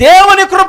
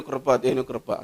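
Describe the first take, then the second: First: Loud, high cry of grace; shouted exclamation. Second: Much softer and lower; hushed. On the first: Preacher shouts God's grace to the congregation, loud and high. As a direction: call it out to the whole church. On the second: Preacher repeats God's grace to the congregation, hushed. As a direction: let it sink to a hush. Repeats phrase, fading to hush. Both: Real, not acted.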